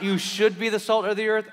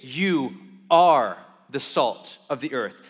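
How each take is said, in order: First: "You should be the salt of the earth" with salt lifted, a light maybe; wrong version, stress on salt. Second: "You are the salt of the earth" slow, louder, weight on are; stress on ARE. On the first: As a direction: offer it as a mere suggestion. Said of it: "it's not". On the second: Preacher telling the church who they are, stress on are. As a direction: declare it as settled fact. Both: Shown as a demonstration.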